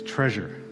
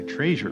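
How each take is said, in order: First: It is said in a standard pronunciation. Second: It is said in a Pittsburgh pronunciation. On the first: The speaker calls it right. "but it's treasure" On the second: The speaker calls it wrong. "because I'm Pittsburgh and I say treasure"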